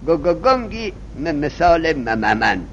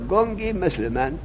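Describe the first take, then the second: First: The first sounds are repeated in a stutter. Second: The words flow smoothly without any repeated sounds. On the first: The speaker cannot speak freely. "اونی که زبانش گیر میکرد" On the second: The speaker now speaks freely. "گگگنگی نمیگه"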